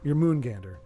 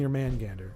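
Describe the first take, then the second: First: The middle syllable has a long 'oo' vowel. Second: The middle syllable has a short 'a' vowel. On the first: "is it your moon or your man?" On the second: "I could see it being your man gander"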